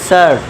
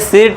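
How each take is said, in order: First: The vowel is an 'ur' sound. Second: The vowel is a short 'i' sound. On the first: The speaker calls it right. "शर्ट पढ़ेंगे" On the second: The speaker calls it wrong. "इस तरह से सिर्ट मत पढ़ना"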